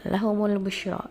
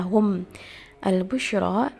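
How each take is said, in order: First: The m is followed by a u vowel. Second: The m has no vowel after it. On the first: "dengan mendhammahkan mimnya" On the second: "yang tadinya"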